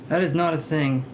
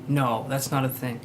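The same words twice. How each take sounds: First: Insisting, with weight on "is"; stress on IS. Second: Said in the usual way. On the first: Shown as a demonstration. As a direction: hit the word "is" hard, then let the sentence fall.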